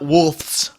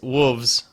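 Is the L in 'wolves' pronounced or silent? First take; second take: pronounced; silent. First: The L sound is clearly pronounced. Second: The L sound is dropped, like 'woovez'. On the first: This is how other people say it. "it's not wolves" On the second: This is how people from Ohio say it. "it's an Ohio pronunciation"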